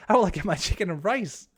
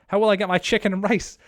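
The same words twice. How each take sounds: First: The same whiny line again in a goofy character voice; put-on silly voice. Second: Louder, higher mock despair over losing rice; mock outrage. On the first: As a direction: ham up the rice complaint in a funny voice. Repeats the chat line in a put-on voice. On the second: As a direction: whine it like your dinner was stolen. Reading chat, mock dismay over rice.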